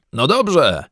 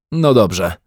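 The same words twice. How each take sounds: First: Higher, called-out agreement; raised-pitch shout of assent; shouted back. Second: Said in the usual way. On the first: A narrator's reading. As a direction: call back, ready to go. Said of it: "odkrzyknął pan Brown".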